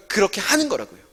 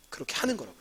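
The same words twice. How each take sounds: First: Said in the usual way. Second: Quiet repeat. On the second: Real, not acted. Teacher repeats the point.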